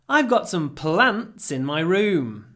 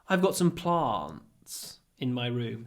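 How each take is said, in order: First: It is said in a non-Southern English accent. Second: It is said in a Southern English accent.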